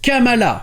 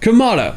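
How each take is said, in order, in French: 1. Il se prononce à la française. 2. Il se prononce à l'anglaise. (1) "c'est celui qu'on prononcera en français" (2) "nous avons la deuxième voyelle qui est accentuée"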